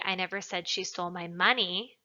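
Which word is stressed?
money. The word 'money' is emphasized. She stole something other than the money. "Implies that she stole something else, not the money"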